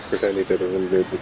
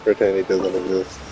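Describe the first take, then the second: No difference in how they are said.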